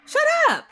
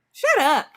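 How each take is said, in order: First: Much higher, squeaky exasperated shut up; shrill mock exasperation. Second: Dismissive. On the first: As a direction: pitch the shut up way up in disbelief. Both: Real, not acted.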